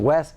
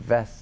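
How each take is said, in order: First: The word begins with a w sound. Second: The word begins with a v sound.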